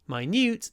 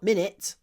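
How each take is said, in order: First: It is pronounced like 'my newt'. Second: It is pronounced like 'minnit'. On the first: It means tiny. "minute, the adjective" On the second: It names the unit of time. "not minute, the noun"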